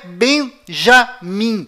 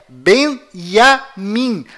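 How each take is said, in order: First: The name starts with a J sound. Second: The name starts without a J sound. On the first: The speaker calls it wrong. "não é Benjamim" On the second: The speaker calls it right. "A pronúncia correta é Benjamim. ... nenhuma letra com som de J"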